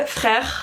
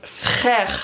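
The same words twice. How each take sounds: First: Said in the usual way. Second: Drawn-out, eye-rolling "frère"; fed-up falling "frère"; exaggerated exasperation. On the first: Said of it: "The third word". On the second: Shown as a demonstration. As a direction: stretch it out as if rolling your eyes. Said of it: "it's, like, really heavily exaggerated".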